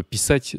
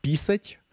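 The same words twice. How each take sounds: First: "писать" stressed on the final syllable САТЬ; stress on second syllable. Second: "писать" wrongly stressed on the first syllable ПИ. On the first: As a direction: put the accent on А in "писать". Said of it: "c'est encore plus important". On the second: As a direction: hit the И in "писать", leaving А unstressed. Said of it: "si tu mets l'accent tonique sur le i". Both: Shown as a demonstration.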